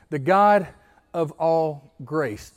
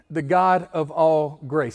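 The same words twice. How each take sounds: First: The God of all grace, slow, leaning on all; call-and-response phrase. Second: The God of all grace, slow, stressing god; slow and stressed. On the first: Pastor saying the phrase together with church, slow. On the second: Pastor leading the church in a phrase, slow and stressed. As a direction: lay weight on god and grace. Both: Shown as a demonstration. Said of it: "Say that with me".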